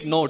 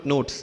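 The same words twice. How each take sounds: First: It is said with a Gujarati-influenced accent. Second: It is said with a standard English accent.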